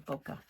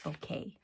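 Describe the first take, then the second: First: "bokeh" with a weak "kuh" ending; mistaken pronunciation. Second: "bouquet" with a "kay" ending; corrected pronunciation. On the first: Crafter shows her usual slip, "bokeh" as BOH-kuh. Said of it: "I always wanna say bokeh". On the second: Crafter gives the intended word, "bouquet" as boh-KAY. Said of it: "it's bouquet". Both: Shown as a demonstration.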